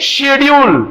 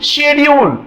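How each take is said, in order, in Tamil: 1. வார்த்தை sh ஒலியில் தொடங்குகிறது. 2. வார்த்தை sh ஒலியில் தொடங்குகிறது.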